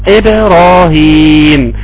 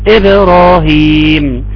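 The two takes are said the same way.

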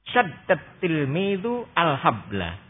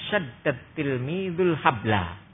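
First: The article is said apart, with its own vowel. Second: The article is run into the previous word.

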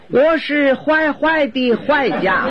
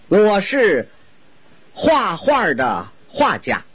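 First: The key syllable is pronounced huai. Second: The key syllable is pronounced hua. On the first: The speaker calls it wrong. "就因为一个画字他发音走了形" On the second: The speaker calls it right. "我先用普通话给您介绍一下他的身世"

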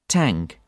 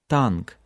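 First: The t is released with a strong puff of air. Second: The t is released with little air. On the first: "English, a lot of air flows out at the beginning" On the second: "Russian, much less so"

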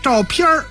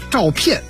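First: The last syllable ends with an r-coloured sound. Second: The last syllable ends plainly, with no r-colouring. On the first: This is a colloquial northern form. "您如果读儿化音" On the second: This is the standard dictionary form. "正字念片，就现在规定的念片啊"

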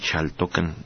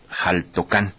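First: It starts with ch/sh, no final stress. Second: It starts with harsh j, final syllable stressed. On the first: This is the original Nahuatl pronunciation. "en náhuatl podría pronunciarse Xaltocan sin acento y la X como Che" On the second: This is how locals traditionally say it. "así lo pronuncian y así lo respetamos"

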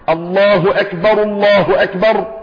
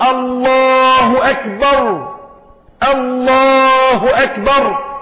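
First: The phrases run together with a vowel linking them. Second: There is a stop after the first phrase. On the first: The two phrases are joined as one. "بضم الراء في الاولى لان مع الوصل هرفع" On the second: Each phrase is said on its own. "اقف على رأس كل جملة"

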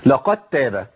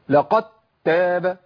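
First: The d merges smoothly into the following t. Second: The d is pressed hard before the t. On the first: The speaker calls it right. "ادغام الدال في التاء" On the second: The speaker calls it wrong. "نبر بقوه على الدال ... ما ينفعش"

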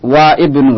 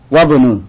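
First: The i vowel of ibnu is pronounced separately. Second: The i vowel is dropped, wa joins bnu. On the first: The speaker calls it wrong. "Tidak, wa ibnu, la, salah" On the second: The speaker calls it right. "Jadi disambung, wabnu langsung"

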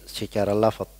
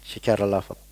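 Both takes have the same delivery.

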